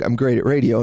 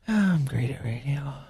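First: It is yelled with confidence. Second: It is said hesitantly, without confidence.

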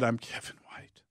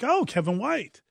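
First: It is said with agony. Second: It is said with delight.

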